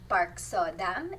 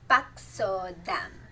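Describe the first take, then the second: First: The name is said with English-style sounds. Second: The name is said with Korean-style sounds. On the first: The speaker calls it wrong. "It's not Park So Dam" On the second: The speaker calls it right. "it's Pak So Dam"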